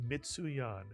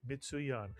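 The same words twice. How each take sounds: Both takes have the same delivery.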